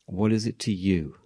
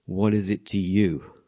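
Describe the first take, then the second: First: Said in the usual way. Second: Slow, measured rebuke; slow calm rebuke from Jesus; slow Jesus reply. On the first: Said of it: "He says that twice". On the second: Retold or imitated. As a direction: lay each word down slowly. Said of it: "Jesus' response was".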